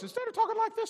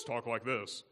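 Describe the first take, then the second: First: Much higher, squeaky put-on voice. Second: Low voice. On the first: Preacher showing Jacob's normal voice, very high. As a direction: pitch it way up, unlike yourself. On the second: Preacher showing the disguised voice, low and plain. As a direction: voice dropped back low. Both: Shown as a demonstration.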